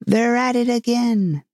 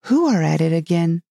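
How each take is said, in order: First: Mock shout. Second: Mildly venturing a question; tentative question. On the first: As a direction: call it out high, as a restrained shout. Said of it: "shouted at the top of his voice". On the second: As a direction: ask it cautiously, without calling out. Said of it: "she ventured to ask". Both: A narrator's reading.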